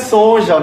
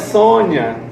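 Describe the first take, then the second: First: The middle consonant is a 'zh' sound. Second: The middle consonant is a 'y' sound. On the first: The speaker calls it wrong. "Não é Sonja" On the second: The speaker calls it right. "é Sônia"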